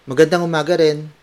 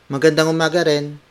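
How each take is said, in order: Both takes have the same delivery.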